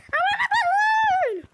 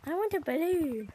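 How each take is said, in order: First: Demanding shout. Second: Said in the usual way. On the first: Real, not acted. Player yelling at the seller for a balloon, demanding shout.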